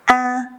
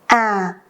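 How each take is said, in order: First: The pitch stays high and level. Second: The pitch starts low and falls slowly. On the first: "This is a high tone and the pronunciation is flat, not go up or down" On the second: "This is a low tone and the pronunciation goes down slowly"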